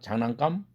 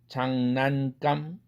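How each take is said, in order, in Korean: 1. g 앞의 비음은 ng 소리예요. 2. g 앞의 비음은 n 소리예요. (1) "응사운드로 바뀝니다" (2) "은사운드가"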